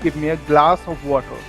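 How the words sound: It is said in an Indian accent. "I'm an Indian, so we call it"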